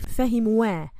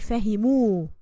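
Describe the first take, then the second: First: The word ends with an added 'wa' sound. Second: The word ends with a plain 'u' sound. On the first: The speaker calls it wrong. "We don't say fahimuwa" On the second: The speaker calls it right. "we say fahimu. And this alif is silent"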